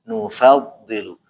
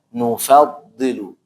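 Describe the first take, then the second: No difference in how they are said.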